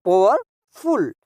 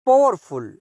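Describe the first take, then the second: First: powerful slowly, pause before फुल; two separate beats in powerful; split into parts. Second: Said in the usual way. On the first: Shown as a demonstration. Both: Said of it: "ये टू syllable adjectives कहलाते हैं".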